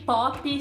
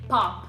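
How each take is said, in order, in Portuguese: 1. Uma vogal extra "i" vem depois da consoante final. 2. A palavra termina direto na consoante final. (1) "elas vão acabar soando como" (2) "é importante não colocar um i no final"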